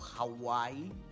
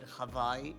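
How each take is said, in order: First: It is said the Americanized English way. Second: It is said the native Hawaiian way. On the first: This is how outsiders usually say the name. The speaker calls it wrong. "instead of Hawaii" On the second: This is how local people say the name. The speaker calls it right. "the Hawaiians, actually call it Hawaii"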